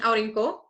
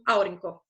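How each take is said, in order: First: The stress falls on a later syllable. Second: The stress falls on the first syllable. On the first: The speaker calls it wrong. "nem aurinko" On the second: The speaker calls it right. "é produzida como aurinko"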